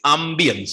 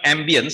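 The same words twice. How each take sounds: First: The word is pronounced the French way. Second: The word is pronounced the English way. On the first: The speaker calls it right. "Ambience is a French word. ... it is ambience" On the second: The speaker calls it wrong. "The pronunciation is not ambience"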